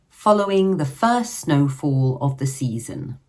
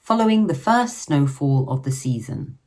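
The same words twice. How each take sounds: The two takes are said the same way.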